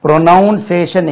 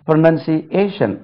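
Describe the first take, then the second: First: ப்ரொனவுன்சியேஷன் with a strong "NOUN"; ப்ரொனவுன்சியேஷன், held up as the mistake; wrong pronunciation. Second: ப்ரொனன்சியேஷன் slow, split after "see"; slow careful model of ப்ரொனன்சியேஷன்; correct pronunciation. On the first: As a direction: say ப்ரொனவுன்சியேஷன் as "pro-NOUN-say-shun". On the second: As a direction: say ப்ரொனன்சியேஷன் slowly as "pro-nun-see, AY-shun". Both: Shown as a demonstration. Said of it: "எவ்வளவு வித்தியாசம் இருக்கு".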